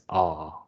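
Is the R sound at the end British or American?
British. The word ends without an R sound, British style.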